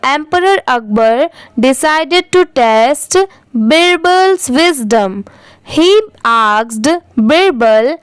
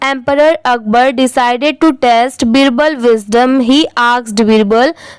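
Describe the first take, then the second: First: There is a short pause between the two clauses. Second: The two clauses run together without a pause. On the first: The speaker calls it right. "फिर comma आएगा तो वहां पर भी थोड़ा रुकिए।" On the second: The speaker calls it wrong. "तो ये रॉन्ग होगा।"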